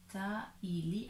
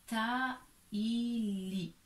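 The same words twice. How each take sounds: First: "Taïli" with syllables closer together; joined-up name. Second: "Taïli" slow, in three syllables; sounded-out name. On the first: Teacher repeats the name, less stretched. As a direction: join "Taïli" more, still slowly. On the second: Teacher reads a name by syllables, drawn out. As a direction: stretch "ta... i... li". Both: Shown as a demonstration. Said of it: "il faut attacher".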